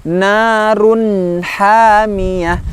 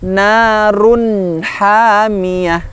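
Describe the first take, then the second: No difference in how they are said.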